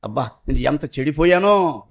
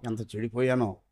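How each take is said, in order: First: Said in the usual way. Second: ఎంత చెడిపోయానో repeated much softer and lower, nearly gone; a broken, almost silent echo; fading lament. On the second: Shown as a demonstration. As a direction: let ఎంత చెడిపోయానో die away into a hush. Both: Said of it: "repeated lament".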